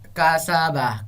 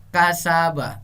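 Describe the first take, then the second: Both takes have the same delivery.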